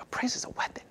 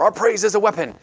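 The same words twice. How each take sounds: First: Very soft, whispered doubt; unconvinced whisper. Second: High, emphatic mock worship line; imitated worship declaration. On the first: Retold or imitated. Speaker replaying own reaction to worship lyric, doubtful whisper. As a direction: whisper it as if it does not land. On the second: Speaker quoting worship songs heard before, high and declarative. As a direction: proclaim it like a worship lyric.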